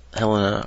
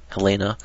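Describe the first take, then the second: First: Helena stressed on the first syllable, HEL-uh-nuh; first pronunciation. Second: Helena stressed in the middle, huh-LAY-nuh; alternative pronunciation. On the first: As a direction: say Helena as HEL-uh-nuh, short middle vowel. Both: Shown as a demonstration. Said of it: "however you wanna say it".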